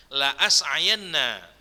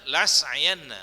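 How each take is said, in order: First: Slow "La as'ayanna" with a break between La and as; careful "La as'ayanna", two separate a sounds; hamza pronounced. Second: "la as'ayanna" contracted to "las'ayanna"; "la as'ayanna" with one single a, no break; wrong merged reading. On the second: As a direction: drop the hamza, la and as fused in "la as'ayanna". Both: Shown as a demonstration. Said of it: "Nggak boleh dibaca".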